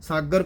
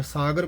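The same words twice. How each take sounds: First: ਸਾਗਰ in the taught recitation form; correct reading demo. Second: ਸਾਗਰ in the rejected variant form; mistaken reading demo. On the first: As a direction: sound out ਸਾਗਰ as the teacher recites it. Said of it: "ਸਾਗਰ ਪਾਠ ਕਰਨਾ ਹੈ". (ਸਾਗਰ ਦਾ ਸਿਖਾਇਆ ਉਚਾਰਨ) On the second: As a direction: show the variant of ਸਾਗਰ to be avoided. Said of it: "ਸਾਗਰ ਪਾਠ ਨਹੀਂ ਕਰਨਾ ਹੈ". (ਸਾਗਰ ਦਾ ਗਲਤ ਉਚਾਰਨ) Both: Shown as a demonstration.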